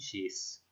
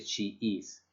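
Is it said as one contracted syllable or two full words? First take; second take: contracted; full. First: It is said as one contracted syllable. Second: It is said as two separate full words. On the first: "a la hora de leerlo en inglés se dice she's" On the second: "Ya no se dice she is"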